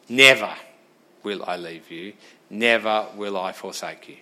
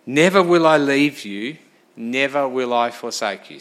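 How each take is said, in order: First: Mock the promise as if it meant nothing; sarcastic. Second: Said in the usual way. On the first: Shown as a demonstration. Preacher shows the congregation a dismissive reading, sarcastic. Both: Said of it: "That's being sarcastic".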